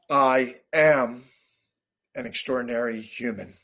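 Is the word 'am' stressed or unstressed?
stressed. The word am is stressed.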